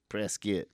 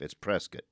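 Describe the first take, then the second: First: The second syllable sounds like 'kit' in biscuit. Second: The second syllable does not sound like 'kit'. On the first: "like biscuit" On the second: "I've lived here my whole life"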